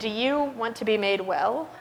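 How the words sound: The question sounds cold and contemptuous. The asker looks down on the man. "Is it contempt?"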